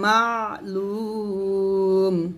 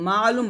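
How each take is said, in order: First: The middle throat consonant is pressed clearly. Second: The middle throat consonant is left out. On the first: The speaker calls it right. "আইনে চাপ দিয়ে বলতে হবে" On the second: The speaker calls it wrong. "মা আলুম বলা যাবে না"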